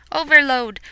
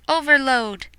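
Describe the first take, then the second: No difference in how they are said.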